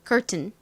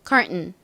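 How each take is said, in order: First: The T sound is pronounced clearly. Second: The T sound is swallowed and blurred. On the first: "이 T 발음까지 해서 자, 또박또박 발음해 볼게요" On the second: "미국 사람들은 심지어 이 T 소리까지 뭉개가지고"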